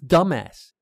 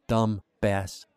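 First: The B sound in the middle is silent. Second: The B sound in the middle is pronounced. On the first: The speaker calls it right. "it's dumbass" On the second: The speaker calls it wrong. "She pronounced the B in dumbass again"

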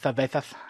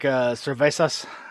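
First: The z is said as a lisped th sound. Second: The z is said as a plain s sound. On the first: This is how people in Spain say it. "they say cervezas" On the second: This is the usual pronunciation outside Spain. "instead of saying like cervezas"

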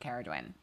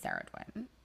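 First: The name begins with a K sound. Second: The name begins with an S sound. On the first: The speaker calls it right. "I'm pretty sure it's Caradwyn" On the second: The speaker calls it wrong. "I thought it was Saradwyn. So that's wrong"

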